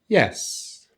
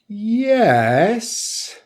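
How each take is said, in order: First: The pitch falls on the word. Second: The pitch rises fully on the word. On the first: The answer is definitely yes. "which just takes a falling intonation" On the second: The answer is yes, but not completely certain. "we can use a full rise intonation pattern"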